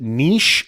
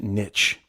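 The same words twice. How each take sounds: First: The vowel is long and it ends in 'sh'. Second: The vowel is short and it ends in 'tch'.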